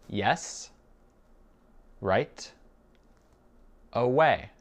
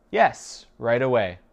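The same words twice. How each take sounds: First: Very slow, long gaps between words; spaced-out language-drill reply. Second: Connected reply with a raised, punched opening; ready answer. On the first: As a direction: give each word separately for a learner. Teacher repeats it word by word. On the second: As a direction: answer promptly, pitched up and louder. Teacher gives whole answer first. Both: Shown as a demonstration.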